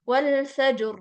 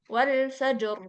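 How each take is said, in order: Both takes have the same delivery.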